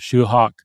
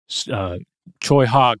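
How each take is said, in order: First: The name begins with an sh sound. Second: The name begins with a ch sound. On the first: "sort of a Shoe Hawk" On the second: "But it's more like Choi Hawk"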